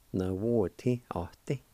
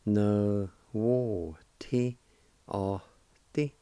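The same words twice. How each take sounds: First: Said in the usual way. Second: Very slow, syllable by syllable. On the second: Shown as a demonstration. Teacher slowly joining the syllables of a word. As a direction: draw each syllable out slowly for learners. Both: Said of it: "And together".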